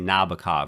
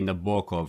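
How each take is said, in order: First: The name is pronounced the American English way. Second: The name is pronounced the Russian way.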